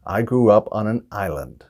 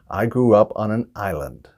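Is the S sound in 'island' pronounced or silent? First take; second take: silent; silent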